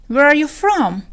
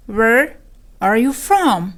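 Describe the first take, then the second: First: Said in the usual way. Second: "Where" alone with a rise, then a pause; broken into parts. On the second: Shown as a demonstration. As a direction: teach it as "Where ... are you from". Lesson repeats it in parts.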